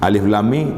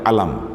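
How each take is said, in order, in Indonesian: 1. Setiap nama huruf diucapkan terpisah. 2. Huruf-hurufnya digabung menjadi satu kata pendek.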